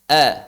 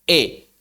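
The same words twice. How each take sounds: First: The vowel sits between e and a. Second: The vowel is a full, clear e sound. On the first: This is the minor tilting of the vowel. "Antara E dengan A" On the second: This is the major tilting of the vowel. "imalah besar"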